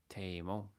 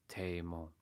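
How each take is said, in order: No difference in how they are said.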